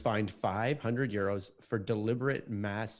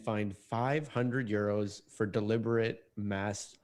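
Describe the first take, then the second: First: The sentence is spoken at a faster pace. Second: The sentence is spoken at a slower pace.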